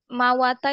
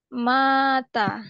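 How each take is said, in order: First: The w sound is kept between two short vowels. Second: The w is dropped and the first vowel lengthened. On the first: This is the unused root form. The speaker calls it wrong. "mawata itu nggak enak" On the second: This is the form actually used. The speaker calls it right. "dihilangin aja. Sebagai gantinya, dipanjangin seperti ini"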